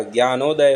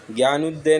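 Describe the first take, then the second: First: ज्ञानोदय as "gyaa-no-day"; correct o vowel. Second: ज्ञानोदय misspoken as "gyaa-nu-de"; short u in the middle of ज्ञानोदय; wrong u vowel. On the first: Teacher correcting it, ज्ञानोदय with "no". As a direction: round o in the middle of ज्ञानोदय. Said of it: "ज्ञानोदय होता है". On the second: Teacher showing the error, ज्ञानोदय with "nu". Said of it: "ज्ञानोदय नहीं होता". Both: Shown as a demonstration.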